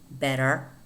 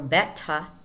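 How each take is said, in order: First: The middle T is a soft, quick flap. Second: The middle T is a full, clear T sound. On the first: "But in American English, it's normally" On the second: "not pronounced T, although it could. We could say"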